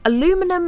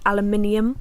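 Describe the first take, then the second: First: It is said in the shorter, easier form. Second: It is said in the longer, local form. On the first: This is how it is said elsewhere. "Aluminum is so much easier to say" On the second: This is how it is said locally. "over here we say aluminium"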